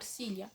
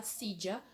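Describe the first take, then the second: First: SILHA as "sília", LL like LH; "sília" variant; silla with LY sound. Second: SILLA as "sídja"; silla with J sound. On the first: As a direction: say SILHA with a liquid LY. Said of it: "se você quer falar silha". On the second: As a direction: LL in SILLA like English J. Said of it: "você vai falar silla". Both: Shown as a demonstration.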